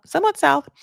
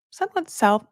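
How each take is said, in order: First: "somewhat south" pitched high and louder on repeat; emphatic repeat. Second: Said in the usual way. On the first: Real, not acted. Correcting herself about geography, "somewhat south" higher and louder. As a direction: lean into "somewhat south" the second time. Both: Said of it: "repeated phrase".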